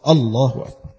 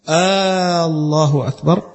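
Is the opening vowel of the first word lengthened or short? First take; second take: short; lengthened. First: The opening vowel is cut short. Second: The opening vowel is drawn out long. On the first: It is a plain declaration. The speaker calls it right. "يقطع همزة قطع" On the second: It sounds like a question. The speaker calls it wrong. "كأنه يستفهم"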